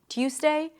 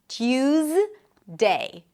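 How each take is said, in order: First: The middle consonant sounds like an s. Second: The middle consonant is a voiced z. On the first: "devoice the z sound and it might sound closer to an S" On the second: "it's a z sound, Tues, not an S"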